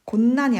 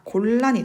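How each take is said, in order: First: 곤란 said as 곤난, gon-nan; wrong pronunciation. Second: 곤란 said as 골란, gol-lan; correct lateralization. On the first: Teacher showing students the mistake, 곤란 as 곤난. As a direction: double n in the middle of 곤란. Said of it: "곤란이 아니라". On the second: Teacher correcting for students, 곤란 as 골란. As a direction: double l in the middle of 곤란. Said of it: "곤란이 되겠죠". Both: Shown as a demonstration.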